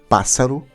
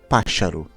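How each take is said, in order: First: The middle consonant is an 's' sound. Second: The middle consonant is an 'sh' sound. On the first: This is how Portuguese speakers say it. "nós dizemos pássaro" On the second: This is how Galicians say it. "os galegos dizem páxaro"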